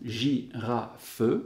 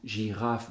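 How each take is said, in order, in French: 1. Il se dit en trois syllabes, la voyelle finale est prononcée. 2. Il se dit en deux syllabes, la voyelle finale est muette. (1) "si on exagère notre euh, prononciation, girafe, alors il y a trois syllabes" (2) "quand on le dit, on entend girafe deux syllabes"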